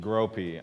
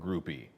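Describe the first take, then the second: First: The name sounds like 'gropey'. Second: The name sounds like the word 'groupie'. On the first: The speaker calls it right. "Gropey. I'm sorry, not groupie" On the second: The speaker calls it wrong. "I'm sorry, not groupie"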